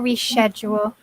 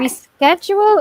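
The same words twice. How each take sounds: First: The middle is said with a 'sh' sound. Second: The middle is said with a 'sk' sound. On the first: "or a sh" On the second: "it could be a sk"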